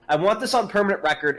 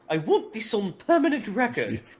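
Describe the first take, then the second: First: It is spoken in the speaker's ordinary voice. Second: It is spoken in a put-on character voice. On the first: "let me start over with my normal voice" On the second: "I think it's the voice you're doing"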